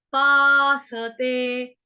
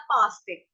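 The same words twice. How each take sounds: First: पासते with full स, three syllables; slow paasate. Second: पास्ते with half स, two syllables; clipped पास्ते like pasta; wrong paaste. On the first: Teacher says पासते fully, not like pasta. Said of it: "गलती से मुंह से निकल जाता है पास्ते". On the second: Teacher shows the common mistake पास्ते. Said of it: "गलती से मुंह से निकल जाता है". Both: Shown as a demonstration.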